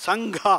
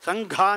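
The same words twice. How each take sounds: Both takes have the same delivery.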